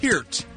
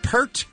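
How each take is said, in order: First: The vowel sounds like the one in 'peer'. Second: The vowel sounds like the one in 'pert'. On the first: The speaker calls it right. "It's like peer with a T" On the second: The speaker calls it wrong. "Not Pert"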